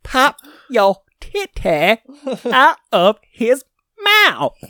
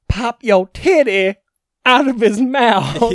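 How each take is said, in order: First: It is said more slowly. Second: It is said at normal speed.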